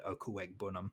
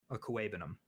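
First: Okwuegbunam with the G sounded; mistaken, pronounced G. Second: Okwuegbunam with no G sound; self-correcting Okwuegbunam, leaving the G silent; corrected, silent G. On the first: Shown as a demonstration. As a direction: say Okwuegbunam as oh-koo-EGG-buh-num. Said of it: "the amount of times I've said". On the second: Real, not acted. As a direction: say Okwuegbunam as oh-koo-AY-buh-num. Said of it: "You don't pronounce the G".

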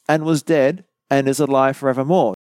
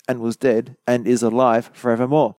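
No difference in how they are said.

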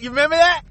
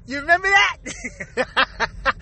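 First: Said in the usual way. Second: Slow, stretched, rising you remember that?; drawn-out repeat. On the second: Pretend. Teasing listeners about an old reference, slow and stretched. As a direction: stretch remember out slowly and let it rise.

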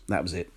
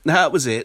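First: Said in the usual way. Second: "That was it" said through a laugh, louder. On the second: Real, not acted. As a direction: laugh while repeating it.

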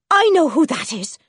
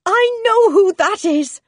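First: Loud, higher-pitched exclamation; sudden eager cry; excited recognition. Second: Very high, loud, drawn-out exclamation; high-pitched, stretched, elated shout; overjoyed cry. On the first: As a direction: exclaim it as you jump up. Wife jumps up hearing husband arrive. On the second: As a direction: cry it out at the top of your voice, slowly, thrilled. Wife repeats it, more excited. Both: A narrator's reading.

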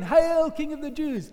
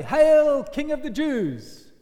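First: Higher, brisk mock salute; mocking hail again. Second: Loud, high, slow mock homage; mocking hail. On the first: Soldiers bowing a second time, mocking hail. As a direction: jeer the title with a fake bow. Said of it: "they bow down again". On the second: Soldiers bowing to Jesus in mockery, loud jeer. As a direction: sneer it like a fake bow. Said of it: "they mock him".

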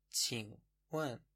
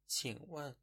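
First: Slow. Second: Said in the usual way. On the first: Shown as a demonstration. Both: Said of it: "به معنای پرسیدن".

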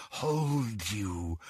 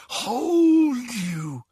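First: Low, very soft hold; whispered. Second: Rising, pleading hold; higher take. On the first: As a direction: breathe it quietly. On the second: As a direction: lift it higher, tighter. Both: A narrator's reading. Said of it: "whispered the voice".

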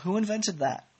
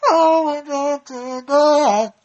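First: Said in the usual way. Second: High, drawn-out theatrical yell; very loud, hammed-up show title; booming title announcement. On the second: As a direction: belt out the segment name, every word stretched. Shouts the segment title again.

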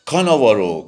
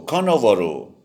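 First: Loud, high parrot cry of the name; کاناوارو squawked high and loud like a parrot. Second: کاناوارو squawked high like a parrot. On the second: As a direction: squawk it again like a drowning parrot. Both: A narrator's reading. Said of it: "با صدای خشن ... فریاد کشید".

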